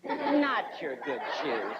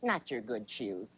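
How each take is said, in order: First: Slow, low mock-mom reproach; mom talk. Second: Low, soft, drawn-out mom verdict; slowly disapprove, dragging the words; mom talk. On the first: Mom looking at your shoes, drawn-out reproach. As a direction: stretch each word like a disapproving mom. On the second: Retold or imitated. Mom looking at your shoes, slow low disapproval. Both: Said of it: "they'll look at you and go".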